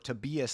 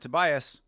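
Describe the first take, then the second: First: The name is said to sound like diabetes. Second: The name is said in the usual way.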